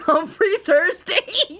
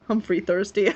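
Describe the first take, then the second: First: Laughing, higher and louder, drawn out slowly; cackling in disbelief at the name. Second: Said in the usual way. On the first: Real, not acted. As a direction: crack up while saying Humphrey Thirsty. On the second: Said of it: "laughs Humphrey Thirsty".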